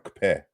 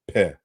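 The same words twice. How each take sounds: First: "kpe" with k and p made at once; "kpe" as older Yoruba, doubly articulated. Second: "pe" with only a p, no k; "pe" as in modern Yoruba, without the doubled kp; simple p sound. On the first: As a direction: start "kpe" on a joint k-p burst. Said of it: "It's a doubly articulated sound". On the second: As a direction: say "pe" with a single lip release. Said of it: "it's losing that feature in modern Yoruba today". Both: Shown as a demonstration.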